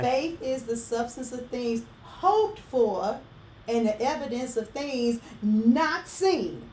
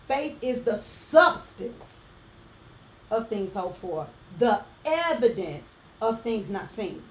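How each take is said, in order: First: The stress falls on hoped for and not seen. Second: The stress falls on substance and evidence.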